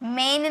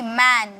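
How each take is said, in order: First: The vowel sounds like the one in 'men'. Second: The vowel sounds like the one in 'man'. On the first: The speaker calls it wrong. "मेन नहीं" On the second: The speaker calls it right. "इसे कहा जाता है मैन"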